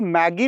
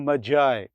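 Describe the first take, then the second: First: It has a hard g and ends in ee. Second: It has a j sound and ends in eye. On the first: The speaker calls it wrong. "इसको मैगी नहीं पढ़ेंगे" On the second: The speaker calls it right. "इसको पढ़ेंगे मजाई। ये एक British accent में है।"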